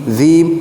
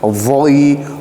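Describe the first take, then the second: First: The consonant is light, with no raised tongue. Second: The consonant is heavy, with a raised back tongue. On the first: The speaker calls it wrong. "Dia tidak boleh dibaca zim, zim, salah" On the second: The speaker calls it right. "harus tebal"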